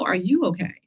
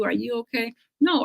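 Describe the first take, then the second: First: "are YOU okay", question turned back; stress on YOU. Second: Mock pity. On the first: Retold or imitated. Survivor retorting to pitying acquaintance, stress on YOU. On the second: Acquaintance pitying a cancer patient, mock concern. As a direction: imitate a hushed, pitying check-in. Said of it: "with that voice".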